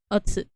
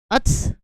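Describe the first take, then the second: First: The final u vowel is fully pronounced. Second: The final u vowel is dropped. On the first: The speaker calls it wrong. "instead of otsu" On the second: The speaker calls it right. "It's just ots"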